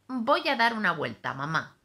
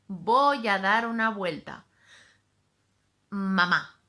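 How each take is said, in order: First: It flows without a long pause before mamá. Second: There is a long pause before mamá.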